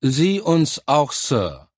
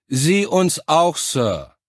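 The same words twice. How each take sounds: First: Slow, higher-pitched dutiful response, falling away on Sir; tired chorus reply. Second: Loud, high, slow military response; louder chorus reply. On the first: Recruits answering their officer in chorus, mildly tired. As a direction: answer as a weary troop in unison. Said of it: "erklang es müde im Chor". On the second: Recruits repeating the reply on the officer's order, louder. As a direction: shout it back to the officer. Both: A narrator's reading.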